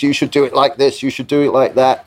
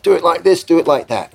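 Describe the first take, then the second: First: Higher, insistent instructions. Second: Much higher, eager echo of instructions; mock a producer parroting someone else's orders. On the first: Retold or imitated. Visitor tells the producer how to run things, insistent. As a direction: lightly imitate someone handing out directions. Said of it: "[name] gives another couple of things". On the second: Producer relays the visitor's directions to the band, parroting. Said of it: "The producer's like".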